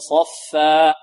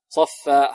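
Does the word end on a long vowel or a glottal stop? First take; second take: long vowel; glottal stop. First: It ends on a held long a vowel. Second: It ends with an abrupt glottal stop. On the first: The speaker calls it right. "الألف نقف عليها بمقدار حركتين" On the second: The speaker calls it wrong. "ولا نختمها بهمزة... هذا خطأ"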